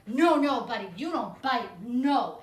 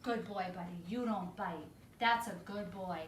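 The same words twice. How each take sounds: First: Loud, stern, emphatic scolding; loud firm correction. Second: Soft praise. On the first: Trainer pinning the dog, scolding loud and firm. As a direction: bark the no's at the dog. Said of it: "what I would say is like". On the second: Trainer reconciling with the dog, gentle and soft. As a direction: soothe the dog after correcting. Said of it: "go into the reconciliation". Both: Shown as a demonstration.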